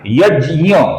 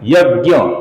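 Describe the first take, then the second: First: It uses the Sanskrit pronunciation of the cluster. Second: It uses the Hindi pronunciation of the cluster. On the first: "ये संस्कृत के अनुसार क्या है" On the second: "Hindi में हम इसे क्या बोलते हैं"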